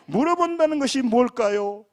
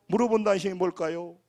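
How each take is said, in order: First: Louder preaching question. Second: Said in the usual way. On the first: Acted. Pastor pressing the congregation with the question, louder and higher. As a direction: ask it with force and a higher voice.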